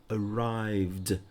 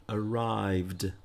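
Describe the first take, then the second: Both takes have the same delivery.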